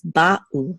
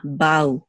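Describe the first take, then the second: First: Ba'u with a short break between ba and u; distinct syllables. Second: Ba'u as one slurred syllable, like "bow"; flowing together. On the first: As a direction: keep ba and u apart in ba'u. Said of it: "pause between the two syllables". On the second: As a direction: glide ba'u together without a pause. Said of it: "They should not flow together". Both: Shown as a demonstration.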